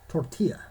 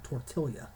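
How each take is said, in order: First: The double L is silent, not an L sound. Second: The double L is pronounced as an L sound. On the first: The speaker calls it right. "you don't pronounce the L's" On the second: The speaker calls it wrong. "It's not tortilla"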